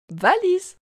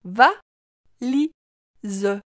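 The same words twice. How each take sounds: First: Said in the usual way. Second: "Va, li, ze" as three separate beats; split into syllables. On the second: Shown as a demonstration. Teacher helping the child hear li, syllable by syllable. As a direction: break valise into va... li... ze, final e voiced. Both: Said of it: "Tu entends bien la syllabe li".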